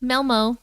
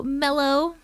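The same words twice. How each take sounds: First: "Melmo" said as mel-mo, the corrected reading; corrected name. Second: "Mello" said as mello, the name misread. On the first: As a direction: fix it to "Melmo", with the m before o. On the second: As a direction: say "Mello" with an m, as the wrong reading. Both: Real, not acted.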